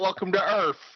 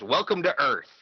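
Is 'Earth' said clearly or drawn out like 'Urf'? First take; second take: drawn out; clear. First: Earth is drawn out and mangled like 'Urf'. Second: Earth is pronounced crisply and clearly. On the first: This is how people misremember the line. The speaker calls it wrong. "It's not" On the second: This is how the line is actually said. The speaker calls it right. "He enunciates it perfectly"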